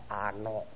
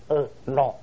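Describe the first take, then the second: First: The name begins with an 'a' vowel. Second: The name begins with an 'e' vowel. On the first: The speaker calls it wrong. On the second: The speaker calls it right.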